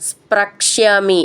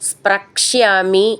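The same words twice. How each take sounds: The two takes are said the same way.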